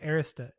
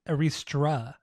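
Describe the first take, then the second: First: There is no R sound after the T. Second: An extra R sound follows the T. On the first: The speaker calls it right. "I think it's Arista. ... there's no second R" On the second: The speaker calls it wrong. "But you're saying Aristra"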